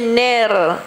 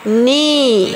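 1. Vokal setelah n terdengar seperti e. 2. Vokal setelah n terdengar seperti i. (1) "jangan baca ner" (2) "Kemaskan bunyi baris bawah"

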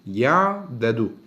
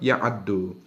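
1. İki d sesi bir ünlüyle ayrılır. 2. İki d sesi birleşip tek, çift bir d olur. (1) "bunun da aslı ya'dedudur" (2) "O iki tane dal harfini de dam ediyoruz"

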